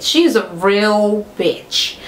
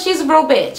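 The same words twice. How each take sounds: First: "real" stretched out slowly for emphasis; slow right down and lean on "real"; drawn-out emphasis. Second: Said in the usual way. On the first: Real, not acted. Vlogger repeating her verdict on Tammy, "real" drawn out emphatically.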